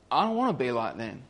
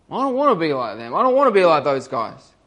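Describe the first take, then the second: First: Softer, quicker inner vow; murmured to himself, faster; quiet resolve. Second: Growing resolve. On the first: Thief's quiet realisation, then repeated. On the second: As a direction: say it again, pushing harder each time. Thief repeats it with growing force. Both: Retold or imitated.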